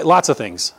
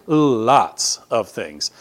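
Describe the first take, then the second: First: Said in the usual way. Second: Lots of things dragged out slowly, LOTS leaned on hard; slow emphatic repeat. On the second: Shown as a demonstration. Preacher repeating his answer, slowed right down for weight.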